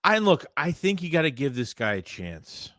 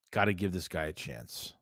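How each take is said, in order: First: Said in the usual way. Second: Quiet repeat. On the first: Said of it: "repeats the point". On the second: Real, not acted. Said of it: "repeats the point quietly".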